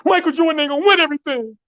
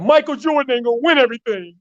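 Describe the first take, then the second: First: Very high, fast, fierce repeat; a teen star doubling down, pitch soaring; young Kobe, even more intense. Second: High, fast, fired-up vow; fast, pitched-up vow, echoing the bold claim; young Kobe vowing. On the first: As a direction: push it higher and faster the second time. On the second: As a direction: Kobe raising his voice, quick and pitched up. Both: Retold or imitated. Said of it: "And then he said".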